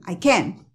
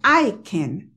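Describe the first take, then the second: First: The stress falls on can. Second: The stress is not on can. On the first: The speaker calls it right. "ponen el acento en can" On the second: The speaker calls it wrong. "Ellos no dicen I can"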